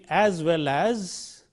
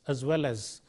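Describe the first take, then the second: First: The first 'as' is said in its full form. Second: The first 'as' is reduced to a weak vowel. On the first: The speaker calls it wrong. "we are not using the strong form as" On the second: The speaker calls it right. "but we are using the weak form is"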